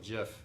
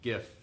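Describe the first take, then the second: First: The word begins with a J sound. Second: The word begins with a hard G sound. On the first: "with a J" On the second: "with a hard G"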